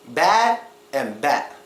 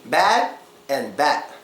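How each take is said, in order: No difference in how they are said.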